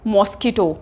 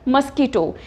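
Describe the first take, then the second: First: The first vowel sounds like 'o' in 'mosque'. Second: The first vowel sounds like 'u' in 'must'. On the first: The speaker calls it wrong. "अक्सर हम क्या बोलते हैं?" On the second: The speaker calls it right. "इसकी correct pronunciation क्या है?"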